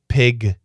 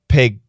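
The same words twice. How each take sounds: First: The final consonant is fully released. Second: The final consonant is cut off, unreleased.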